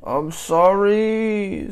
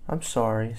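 First: High, loud, long-drawn sorry; child's wailed apology. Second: Said in the usual way. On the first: A narrator's reading. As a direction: whine it out like a child in trouble. Child's exaggerated apology in story.

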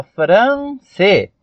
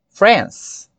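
First: "France" read as written, fran-cê; two-syllable spelling pronunciation. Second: "France" in one syllable, closing on S; one-syllable English pronunciation. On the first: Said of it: "Escreve aí, ó". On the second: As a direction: end "France" on the S without a vowel. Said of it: "ela é monossílaba". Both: Shown as a demonstration.

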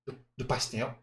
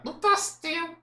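First: Said in the usual way. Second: Very high puppet voice; Kleber. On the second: Acted. Puppet telling host what he liked, high puppet voice. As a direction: answer as a high-pitched dummy. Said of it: "acha uma voz que pareça com o boneco".

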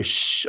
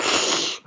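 First: Said in the usual way. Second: Slushy lisped "Shh" out of the side of the mouth; terrible childhood lisp. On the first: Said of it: "So, like, when I would say". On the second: Retold or imitated. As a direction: push "Shh" out sideways, wet lateral lisp. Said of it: "I said everything out of the side of my mouth".

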